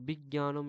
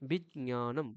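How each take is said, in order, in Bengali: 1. যুক্তাক্ষরটি g আর y মিলিয়ে বলা হয়। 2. যুক্তাক্ষরে হালকা j আর হালকা ñ আছে। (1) "এরকম বলে না কিন্তু। যারা বলে সেটা ভুল।" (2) "এখানে হালকা জ আর হালকা ঞ দুটোই থাকছে।"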